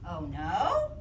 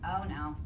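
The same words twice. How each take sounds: First: The voice rises at the end, questioning. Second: The voice stays flat and plain, then falls. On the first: The speaker is asking something. "That's a question" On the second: The speaker is simply stating something.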